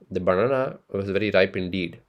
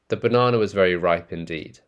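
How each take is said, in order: First: It is said in an Indian accent. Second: It is said in a non-Indian accent.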